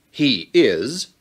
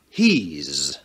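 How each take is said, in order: First: It is said as two full, separate words. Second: It is said as one contracted syllable. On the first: The speaker calls it wrong. "kita tidak mengatakan" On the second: The speaker calls it right.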